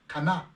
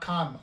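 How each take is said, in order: First: The word ends with an 'a' vowel sound. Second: The word ends with an 'n' consonant sound. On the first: The speaker calls it right. "c'est Kana. Parce qu'on oublie toujours de mettre le A à la fin" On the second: The speaker calls it wrong. "C'est pas Khan. Avant on disait Khan"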